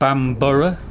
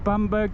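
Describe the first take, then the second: First: The name ends with a longer 'borough' sound. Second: The name ends with a short 'berg' sound. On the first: The speaker calls it right. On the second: The speaker calls it wrong.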